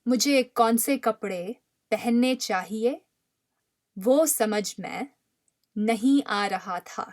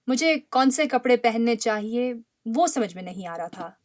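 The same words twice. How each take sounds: First: It is spoken slowly and deliberately. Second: It is spoken at a normal conversational speed. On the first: "then we'll repeat it slowly" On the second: "at the conversational speed"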